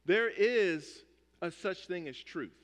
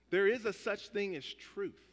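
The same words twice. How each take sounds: First: Slow, weighty, leaning on "There"; slow, solemn with "There" stressed. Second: "is" lifted and stressed. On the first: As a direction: land "There" hard and let it fall. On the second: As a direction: insist on "is" as the key word. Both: Shown as a demonstration.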